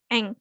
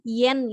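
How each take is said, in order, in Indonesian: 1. Kata ini langsung diawali dengan vokal. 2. Kata ini diawali dengan bunyi y. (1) "aslinya Jepangnya ditulisnya e sama m. Dibacanya eng" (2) "kalau di kita kan bacanya yen ya"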